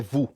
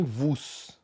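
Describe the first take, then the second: First: Vous as "vu", silent s; correct French pronunciation. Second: Vous as "vuss", final s sounded; wrong pronunciation. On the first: Teacher giving students the right form, correct French pronunciation. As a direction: say vous ending on the vowel. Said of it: "É vous". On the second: Teacher showing students a mistake, final s wrongly pronounced. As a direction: say vous with a hissed s at the end. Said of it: "nem vous". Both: Shown as a demonstration.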